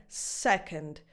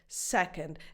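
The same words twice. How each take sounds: The two takes are said the same way.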